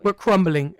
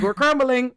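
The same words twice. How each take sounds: First: Said in the usual way. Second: Higher, louder mock lament of coworkers; imitating coworkers. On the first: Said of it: "as I like to say at work". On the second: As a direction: echo the whole office moaning it, hammed up. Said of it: "Everybody's like".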